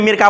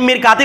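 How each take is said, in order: First: The final t is dropped, ending in a. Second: The word ends with a t plus a vowel.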